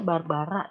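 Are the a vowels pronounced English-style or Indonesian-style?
Indonesian-style. The a vowels sound full, Indonesian-style. The speaker calls it wrong. "jangan dibaca Barbara ya"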